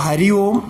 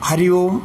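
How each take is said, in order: The two takes are said the same way.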